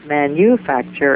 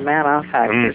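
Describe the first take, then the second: First: The second syllable is a clear 'you' sound. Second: The second syllable is reduced, without 'you'. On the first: The speaker calls it right. "the second syllable is you" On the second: The speaker calls it wrong. "and I hear manufacture"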